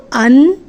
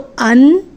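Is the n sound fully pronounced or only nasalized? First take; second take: fully pronounced; fully pronounced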